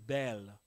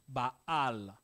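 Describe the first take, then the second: First: The name is said with an English vowel. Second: The name is said with its original vowels. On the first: The speaker calls it wrong. "en anglais, ils disent Bel" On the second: The speaker calls it right. "la vraie prononciation, c'est Baal"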